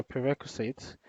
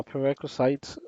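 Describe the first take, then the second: First: PREREQUISITES ending in a short "sits"; pronunciation variant. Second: PREREQUISITES ending like "sites"; alternative pronunciation. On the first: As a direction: say "prerequisites" with its last syllable like "sits". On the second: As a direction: say "prerequisites" with its last syllable like "sights". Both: Shown as a demonstration. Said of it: "however you want to pronounce it".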